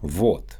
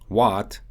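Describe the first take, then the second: First: The vowel is clearly shaped, Russian-accented. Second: The vowel is blended, between A and O. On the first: "what becomes вот" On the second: "English often uses blended vowel sounds in words like what"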